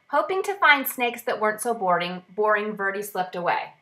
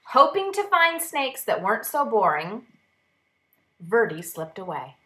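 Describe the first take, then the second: First: It runs on without a pause after boring. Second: There is a pause after boring.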